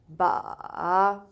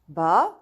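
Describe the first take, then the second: First: It is said with the third tone. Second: It is said with the second tone. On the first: "Third one" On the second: "Going to the second word"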